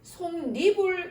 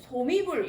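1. 두 번째 음절 앞에 n 소리를 넣어 발음해요. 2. 이 단어는 n 소리를 넣지 않고 발음해요. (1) "실제로 소리 날 때는 ... 솜니불 이렇게 발음된다는 거지" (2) "얼핏 보기에는 솜이불 이렇게 읽으면 될 것 같은데"

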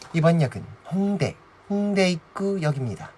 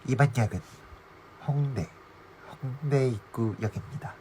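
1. 목소리가 더 높아요. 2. 목소리가 더 낮아요.

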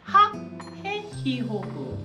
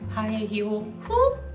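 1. 강세는 첫 번째 음절에 옵니다. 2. 강세는 다섯 번째 음절에 옵니다.

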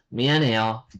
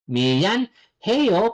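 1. Mabilis itong binibigkas, nawawala ang tunog ng H at pinagdudugtong. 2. Binibigkas ang bawat pantig nang hiwalay, pinapanatili ang tunog ng H. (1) "pag mabilis yung pagbigkas" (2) "pag gusto mong isa-isahin, it's okay"

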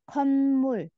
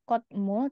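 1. Suku kata pertama diakhiri bunyi n. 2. Suku kata pertama diakhiri bunyi t. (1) "kayak dibaca nian, tapi nyambung ke miem" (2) "atau kotmul"

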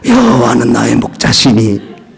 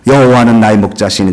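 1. 목소리가 거칠고 허스키합니다. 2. 목소리가 부드럽고 매끄럽고 울림이 있습니다. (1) "허스키 나는 소리로 여호와는 나의 목자시니 아마 이렇게 했는지 모르겠어요" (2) "부드럽고 그리고 금속성 나는 목소리로"

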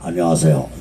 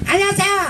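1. 인사를 낮고 굵은 목소리로 해요. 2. 인사를 가늘고 높은 목소리로 해요. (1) "나는 좀 목소리가 중화잖아. 중저음" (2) "진성이 목소리 가는 놈 있잖아"

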